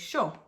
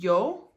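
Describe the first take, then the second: First: The first sound has an Argentine-accent sound. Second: The first sound is a Y sound. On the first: "But then in Argentina, or maybe like Uruguay as well, they'll say yo" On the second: "So we know that yo is I"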